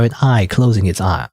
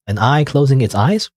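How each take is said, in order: First: Said in the usual way. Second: Re-read "eyes?" as a confused question; puzzled rising question. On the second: Shown as a demonstration. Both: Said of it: "Uh, eyes?".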